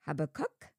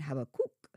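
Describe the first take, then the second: First: The last syllable rhymes with 'duck'. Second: The last syllable rhymes with 'book'. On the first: "there are more ways to pronounce Habakkuk's name than I ever imagined, including HabaCUK" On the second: "and HabaCOOK"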